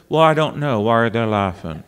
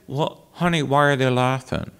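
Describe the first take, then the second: First: Mimicking the coach right back, dropping low and quick; Helen Hodem. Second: Lightly imitated elderly vocal coach, softer; puzzled question in the coach's voice; Helen Hodem. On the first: Singer answering the coach in her voice, mimicry. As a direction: echo her question in her own voice. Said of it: "I had mimicked her so well". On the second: Coach turning to the singer who mimics her, light impression. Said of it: "she would say".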